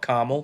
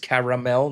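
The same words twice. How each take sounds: First: No vowel is sounded between R and M. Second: A vowel is sounded between R and M. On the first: The speaker calls it wrong. "not caramel" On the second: The speaker calls it right. "You see the, the A, the A in between the R and the M. It is caramel"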